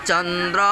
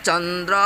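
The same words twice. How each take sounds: The two takes are said the same way.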